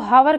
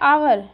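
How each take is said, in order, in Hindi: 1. शब्द की शुरुआत में साफ़ h ध्वनि है। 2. शब्द सीधे एक स्वर ध्वनि से शुरू होता है। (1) "कई बच्चे इसको हावर कह देते हैं, है है नहीं है ये" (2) "एच इसका साइलेंट रहता है"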